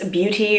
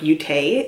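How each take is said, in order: First: It ends with an 'ee' sound. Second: It ends with an 'ay' sound.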